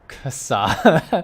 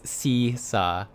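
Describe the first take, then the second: First: The name begins with a k sound. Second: The name begins with an s sound. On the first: The speaker calls it wrong. "I thought it was pronounced Kasa. It's not" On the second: The speaker calls it right. "It's C Sa. ... Like seesaw"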